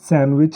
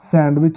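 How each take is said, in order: First: The d sound is silent in the middle. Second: The d sound is pronounced in the middle. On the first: The speaker calls it right. "सैंडविच है" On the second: The speaker calls it wrong. "सैंडविच नहीं है"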